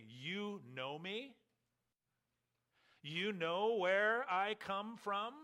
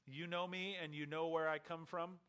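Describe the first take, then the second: First: Slow, ironic rise on both questions; sarcastic question. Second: Said in the usual way. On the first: Shown as a demonstration. Jesus ironically questions the crowd's claim, sarcastic and slow. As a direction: throw their claim back at them, mocking it slowly. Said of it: "sarcastically or ironically saying". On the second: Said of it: "Is there a question mark after that first statement?".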